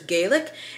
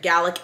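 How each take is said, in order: First: It is pronounced as the name for Irish. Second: It is pronounced as the name for Scottish. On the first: It refers to the Irish language. "Irish is Gaelic" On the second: It refers to the Scottish language. "Gaelic is Scottish"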